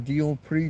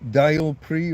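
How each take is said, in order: First: The first vowel sounds like 'ee'. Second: The first vowel sounds like 'eye'. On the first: "Spanish tends to be more of an E sound, so Deal Pre" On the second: "depending on how you want to pronounce the e, the I"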